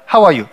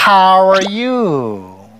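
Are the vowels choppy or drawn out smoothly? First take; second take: choppy; drawn out. First: Each syllable is cut off short and choppy. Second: The vowels are stretched long and flow together. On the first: The speaker calls it wrong. "한국 스타일로 해요. 왜냐면 한국 스타일은 모음이 딱딱딱 끊어져" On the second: The speaker calls it right. "이렇게 길게 끄는 거예요"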